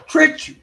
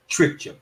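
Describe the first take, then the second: First: Loud, higher taunt; jeering at the witness; mocking shout. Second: Said in the usual way. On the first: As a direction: throw it in his face. Repeating the jab louder.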